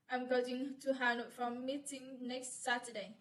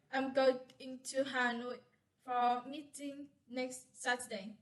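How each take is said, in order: First: "I'm going to Hanoi for meeting next Saturday" run together evenly; single intonation phrase. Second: "I'm going", "to Hanoi", "for meeting next Saturday" as separate chunks; split intonation phrases. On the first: Student presenting an intonation phrase example, said as one connected run. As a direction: say "going to Hanoi" straight through without a break. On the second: Student demonstrating tone units, breaking after "going" and "Hanoi". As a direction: pause after "going" and after "Hanoi", each chunk starting firmly.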